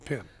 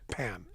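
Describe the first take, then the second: First: The vowel sounds like the one in pin. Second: The vowel sounds like the one in pen. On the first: Someone else says the name this way. The speaker calls it wrong. "he called me Pin. Every single time" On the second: This is how the name's owner says it. The speaker calls it right. "it's actually pen"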